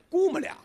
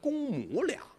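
First: The first syllable is reduced to gu. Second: The first syllable is a full gong. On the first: "但是一念呢必须得念姑母俩" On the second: "正字是公母俩"

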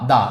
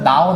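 First: The vowel stays a short plain 'uh'. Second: The vowel glides toward an 'o' sound. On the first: The speaker calls it right. "দা দা এভাবে বলতে হয়" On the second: The speaker calls it wrong. "উচ্চারণটা আসলে দাও না"

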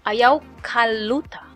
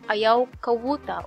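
First: An L sound comes before the ending. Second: A W sound comes before the ending. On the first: "People use interchangeable the L or W" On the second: "People use interchangeable the L or W"

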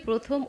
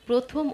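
Both takes have the same delivery.

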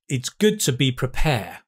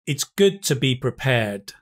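First: The final D sound in 'prepared' is left out. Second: The final D sound in 'prepared' is pronounced. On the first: The speaker calls it wrong. "Let me make a mistake though" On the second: The speaker calls it right. "Yes, excellent. Now that's much better"

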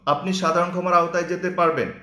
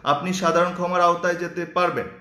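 Both takes have the same delivery.

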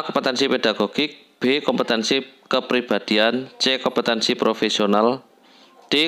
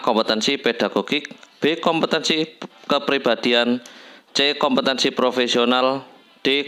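Both takes have the same delivery.

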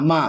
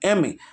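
First: It is blended into one syllable. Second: Each letter name is said separately. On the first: The speaker calls it wrong. "আমরা কোনো এরকমভাবে বলি না যে মা মা" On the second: The speaker calls it right. "আমরা কীভাবে বলি না এম এ"

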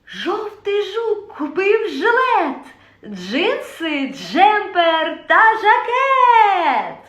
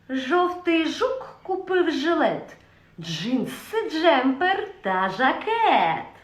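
First: It is said in a joyful voice. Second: It is said in a sly voice. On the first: "Четверта емоція – радість" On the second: "Наступна емоція – хитрість"

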